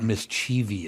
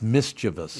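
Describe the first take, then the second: First: The word has an extra 'ee' syllable. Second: The word is said with three syllables. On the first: The speaker calls it wrong. "It's not mischievous. ... there's no I at the end there" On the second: The speaker calls it right. "It's mischievous"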